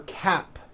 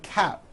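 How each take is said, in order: First: The final P sound is clearly released. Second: The final P sound is dropped. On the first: The speaker calls it right. "For cap" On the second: The speaker calls it wrong. "you may be saying cap. ... you don't hear the P sound"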